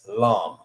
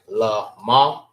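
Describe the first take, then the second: First: It is said as one joined syllable. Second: It is said as two separate syllables. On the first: The speaker calls it right. "when it's connected, ... the sound that it makes is lam" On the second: The speaker calls it wrong. "Instead of saying la ma"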